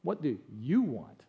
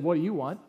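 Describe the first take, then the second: First: "What do you want?" softer, lower and slow, easy on "you"; gentle. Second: Said in the usual way. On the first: Shown as a demonstration. Preacher guessing how Jesus gently asked, soft and slow. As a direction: ask it kindly, slowly. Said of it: "I think he probably said". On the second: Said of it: "I don't know that he said".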